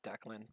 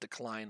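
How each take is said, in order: First: The second syllable sounds like 'clan'. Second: The second syllable rhymes with 'line'. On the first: This is how the speaker says it. "I call it Declan" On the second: This is how some other people say it. "some people call it Decline"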